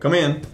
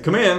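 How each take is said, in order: First: It is said at normal volume. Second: It is said more loudly.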